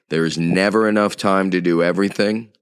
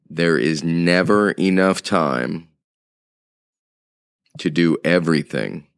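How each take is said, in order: First: It is said at a quicker pace. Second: It is said at a slower pace.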